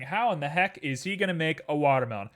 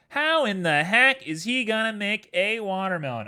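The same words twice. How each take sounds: First: Said in the usual way. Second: High, loud mock-incredulous viewer; hammed-up imitation of a doubting audience; viewer's voice. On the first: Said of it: "you're looking at this and you're saying". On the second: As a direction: put on an exaggerated, higher voice for a baffled onlooker. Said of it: "I said it in your voice".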